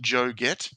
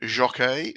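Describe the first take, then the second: First: The name ends with a 'get' sound. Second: The name ends with a 'key' sound. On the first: The speaker calls it right. "It's actually Joe Get" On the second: The speaker calls it wrong. "No, it's not"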